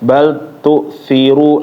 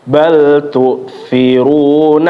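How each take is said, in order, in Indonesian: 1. L pada bal dihilangkan dan menyatu ke T. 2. L pada bal diucapkan dengan jelas.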